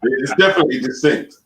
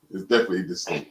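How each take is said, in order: First: Said in the usual way. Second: Softer, lower repeat to himself; quiet murmured echo of the same words. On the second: Real, not acted. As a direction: mutter it again under your breath. Echoing himself under his breath.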